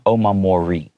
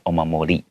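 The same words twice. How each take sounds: First: The last R is a hard American R. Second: The last R is soft and light. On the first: The speaker calls it wrong. "in American English, I would probably pronounce that last R with a hard R" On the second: The speaker calls it right. "usually the R sound is not as hard"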